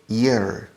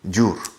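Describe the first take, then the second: First: It begins with a soft Y glide sound. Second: It begins with a hard J sound. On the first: The speaker calls it right. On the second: The speaker calls it wrong. "You convert the Y into an English J"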